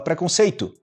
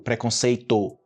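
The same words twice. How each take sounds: First: The final vowel sounds like u. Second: The final vowel sounds like a clear o. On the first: The speaker calls it right. "A gente fala preconceito. Tu" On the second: The speaker calls it wrong. "mas ninguém fala no Brasil preconceito"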